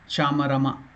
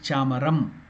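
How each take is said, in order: First: The word ends with a full vowel sound. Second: The word ends on a short, cut-off m. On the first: The speaker calls it wrong. "it is not Chamarama" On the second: The speaker calls it right. "It is Chamaram. Half letter"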